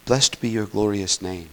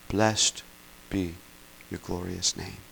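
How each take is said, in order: First: Said in the usual way. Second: Blessed, be, your glorious name spaced out with long pauses, fading softer; a slow, softening line of worship; slow reverent prayer. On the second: Shown as a demonstration. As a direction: pray it word by word, hushed. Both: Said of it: "This is what they say".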